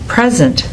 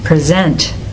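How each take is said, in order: First: The stress is on the first syllable. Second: The stress is on the second syllable. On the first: It is a noun. "when the homograph is a noun, the stress is on the first syllable" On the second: It is a verb. "When it's a verb, the stress goes on the second syllable"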